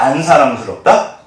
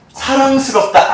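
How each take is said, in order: First: Said in the usual way. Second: 사랑스럽다 sung up high and slow; 사랑스럽다 drawn out high and slow; sweetly cooing. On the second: Shown as a demonstration. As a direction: coo 사랑스럽다 like over a baby. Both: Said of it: "엄청나게 사랑스럽다".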